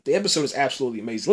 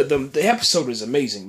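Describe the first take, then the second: First: Fast, gushing rush of praise; getting too excited. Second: Said in the usual way. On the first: Real, not acted. Reviewer carried away praising the episode, fast and excited. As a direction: rattle off "absolutely amazing" in an eager rush. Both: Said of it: "I'm getting too excited".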